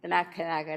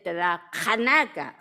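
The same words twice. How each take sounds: First: The name is said in the common anglicized way. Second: The name is said with native-language pronunciation. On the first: This is how outsiders know the word. "like everybody else" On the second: This is how the speaker's people say it. "if we were speaking our language, we'd say"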